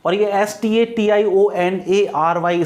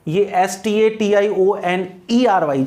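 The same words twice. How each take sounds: First: Slow spelling with ए leaned on; stress on the A. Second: Slow spelling with ई leaned on; stress on the E. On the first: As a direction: spell it slowly, landing on ए. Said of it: "stationery का मतलब होता है". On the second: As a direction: spell it slowly, landing on ई. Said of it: "जिसमें ई आता है". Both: Shown as a demonstration.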